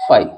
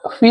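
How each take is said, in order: First: The word ends in an 'eye' vowel. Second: The word ends in an 'ee' vowel. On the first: The speaker calls it right. "फाइ लिखा हुआ है" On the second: The speaker calls it wrong. "ये फी नहीं लिखा हुआ है"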